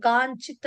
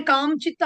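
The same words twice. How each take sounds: First: కాంచిత్ with an n sound before చి; tongue-tip n inside కాంచిత్, lips open; correct-way demo. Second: కాంచిత్ with an m sound before చి; wrong-way demo. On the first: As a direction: say కాంచిత్ as "kaan-chit". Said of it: "అనే పలకాలి". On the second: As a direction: say కాంచిత్ as "kaam-chit". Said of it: "అని పలకూడదు". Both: Shown as a demonstration.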